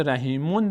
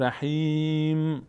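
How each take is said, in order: First: رحیمون with the "-mun" still voiced; unwanted tanwin ending. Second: رحیم with a long held "hee" closed on a humming m; final sukun. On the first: Teacher rejects this reading at a stop, tanwin sounded. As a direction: say رحیمون with its full ending, as the form to avoid. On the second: Teacher shows the correct stop, final sukun. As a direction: stretch رحیم and end on m without a vowel. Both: Shown as a demonstration.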